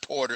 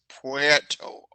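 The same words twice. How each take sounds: First: The first syllable sounds like plain 'po'. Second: The first syllable does not sound like 'po'. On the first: The speaker calls it wrong. "it's not Puerto. It's not P O" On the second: The speaker calls it right. "It's Puerto"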